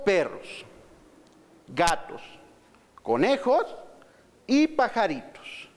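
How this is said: There is a short pause after each item. The speaker calls it right.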